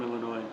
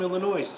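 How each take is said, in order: First: The final S sound is silent. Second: The final S sound is pronounced. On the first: It marks someone from the state. The speaker calls it right. "No, I'm from Illinois" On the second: It marks someone from outside the state. The speaker calls it wrong. "everyone outside of Illinois pronounces the S"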